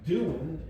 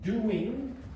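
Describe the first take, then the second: First: The word is said in a reduced form. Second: The word is said in its full form. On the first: "is the weak form" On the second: "is the strong form"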